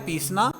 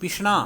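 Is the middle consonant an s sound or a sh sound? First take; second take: s; sh. First: The middle consonant is a plain s sound. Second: The middle consonant is a sh sound. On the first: This is the standard Hindi form. "Hindi में है पीसना" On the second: This is the Kulvi and Mahasu dialect form. "णा हो गया यहां पर, और स को तलव्य श"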